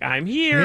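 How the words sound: It is said in a playful, teasing way.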